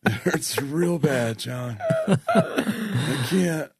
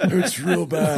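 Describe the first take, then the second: First: Very slow, fading pained groan; gravely ill Tony Romo. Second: Slow, high and pained, a bit hammy; gravely ill Tony Romo. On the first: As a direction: drag it out, out of breath. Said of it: "why is that your Tony Romo voice". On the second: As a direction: moan it like you can barely breathe. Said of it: "Your Tony Romo voice". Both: Pretend.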